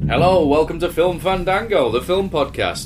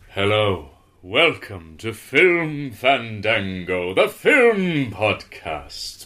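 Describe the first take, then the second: First: It is said in a plain voice. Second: It is said in a spooky voice.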